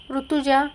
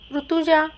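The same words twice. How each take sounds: First: Rutuja called again, only mildly raised; a lighter repeat of the name; softer call. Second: Calling her name out loud, higher and louder; husband storms in yelling for his wife; angry shout. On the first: Scene: husband calls his wife's name a second time, milder. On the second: Scene: furious husband bursts in shouting his wife's name, loud. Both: Acted. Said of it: "जोरात ओरडतच आला".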